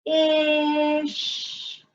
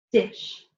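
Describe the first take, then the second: First: Dish drawn out slowly, d then ish, higher; segmented dish; stretched word. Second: Said in the usual way. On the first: Shown as a demonstration. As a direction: sound out d and ish. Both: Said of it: "let's finger stretch it".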